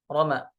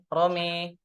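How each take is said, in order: First: The last vowel is an open a sound. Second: The last vowel is tilted toward an e sound. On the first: This is one recognized reading of the word. "Itu di riwayat Hafs an Asim" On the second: This is another recognized reading of the word. "dengan memiringkan bunyi fathah, ya. Fathahnya mim. Jadi e dibacanya"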